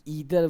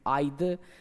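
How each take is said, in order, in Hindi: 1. पहला स्वर 'ee' जैसा बोला जाता है। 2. पहला स्वर 'eye' जैसा बोला जाता है। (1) "अगर कहीं पे ईदर भी कोई बोल रहा है ना तो दिक्कत नहीं है" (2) "So both are absolutely correct"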